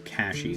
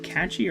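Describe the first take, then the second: First: The middle consonant sounds like 'sh' in cash. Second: The middle consonant sounds like 'ch' in catch. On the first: "Cashy makes more sense to me" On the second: "is it catchy or cashy?"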